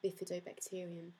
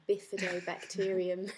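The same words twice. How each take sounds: First: The word is said at normal speed. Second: The word is said slowly.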